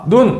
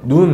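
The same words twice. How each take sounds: First: The vowel is said short. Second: The vowel is said long. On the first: It means the eye. "이렇게 짧게 얘기하는 것은요, 신체기관 눈을 얘기하고요" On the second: It means snow. "내리는 눈은 눈 이렇게 길게 얘기를 합니다"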